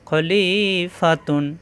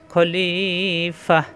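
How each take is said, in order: First: The word ends with a full 'tun' syllable. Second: The word ends in a silent-held 'h' stop. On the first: The reading continues without a stop. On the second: The reader stops at this word.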